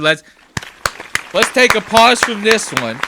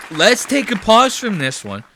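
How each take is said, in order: First: Loud, high announcer voice; big announcer call. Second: Loud, high announcer voice again in earnest; big announcer call. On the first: Host loudly pausing the clip for the audience, announcer voice. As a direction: boom it out like a show host. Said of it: "dramatic pause announcement". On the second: Host repeating the pause call to viewers, loud announcer voice. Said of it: "repeated announcement". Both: Acted.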